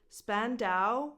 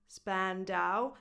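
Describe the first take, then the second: Both takes have the same delivery.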